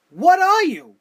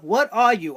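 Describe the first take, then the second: First: Loud and higher, hitting ARE; demanding an answer at full volume; exasperated shout. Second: Said in the usual way. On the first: Real, not acted. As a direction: yell it at him in disbelief. Repeated rhetorical challenge to Dolph.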